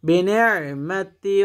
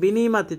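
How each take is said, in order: First: A throaty catch is heard before 'mati'. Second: No throaty catch is heard before 'mati'. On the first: The speaker calls it right. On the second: The speaker calls it wrong.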